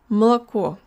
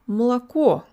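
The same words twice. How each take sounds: First: The unstressed vowels are reduced to ah sounds. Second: The same.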